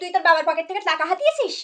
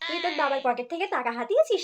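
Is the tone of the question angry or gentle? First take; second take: angry; gentle. First: The question is asked in an angry tone. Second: The question is asked in a gentle tone. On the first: The child is being scolded. The speaker calls it wrong. "এইভাবে রেগে বললে শুনবে না" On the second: The child is being coaxed kindly. The speaker calls it right. "একবার ভালো ভালাই করে শুনে দেখি"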